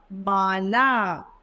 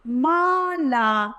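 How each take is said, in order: First: Said in the usual way. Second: Mala stretched slowly, syllable by syllable; slow syllable reading. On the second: Shown as a demonstration. Teacher sounding out Mala for children. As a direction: spell out Mala slowly for pupils. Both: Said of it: "हमारा शब्द बनेगा".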